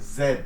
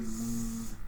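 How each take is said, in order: First: The letter is said the British way. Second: The letter is said the American way. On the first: "in British English, this is pronounced" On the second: "pronounced with the E sound"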